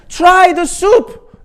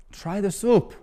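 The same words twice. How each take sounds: First: Very high, loud and slow; old man's desperate drawn-out yell; drawn-out scream. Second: Put-on higher, pushy old Italian man; a hint of a demanding regular; insistent old man. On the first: Retold or imitated. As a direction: stretch every word in a shriek. Eric at peak. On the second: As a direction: press him to taste it. Eric insisting again.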